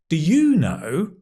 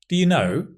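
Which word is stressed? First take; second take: you; know. First: The stress falls on the word you. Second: The stress falls on the word know. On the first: The asker doesn't know and wonders about the listener. "That means I don't know. And what about you?" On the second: It is a plain question. "Just means, do you know"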